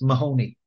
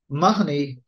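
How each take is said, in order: First: The name is said the North American way. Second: The name is said the modern Irish way. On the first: This keeps an older pronunciation closer to the original Irish. The speaker calls it right. "In North America, it's pronounced Mahoney" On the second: This is the usual pronunciation in Ireland today. The speaker calls it wrong. "this is the way the surname is pronounced in Ireland now"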